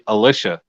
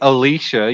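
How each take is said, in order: First: The middle syllable sounds like 'lish'. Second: The middle syllable sounds like 'lee'. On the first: This is how the other person says the name. The speaker calls it wrong. "You say Alicia. ... like delicious" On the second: This is how the name is pronounced by its owner. The speaker calls it right. "I've never heard you say Alicia"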